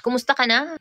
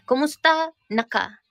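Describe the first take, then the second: First: Said in the usual way. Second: "Kumusta na ka?" said slowly, stretched; slow it down for learners; slow Bisaya. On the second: Shown as a demonstration.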